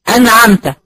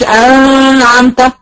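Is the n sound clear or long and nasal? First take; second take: clear; long nasal. First: The n is clear with only brief nasal sound. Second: The n is drawn out with heavy nasal sound. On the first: The speaker calls it right. "ما بقولش" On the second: The speaker calls it wrong. "ما بقولش انعمت، لا ما فيهاش غنه"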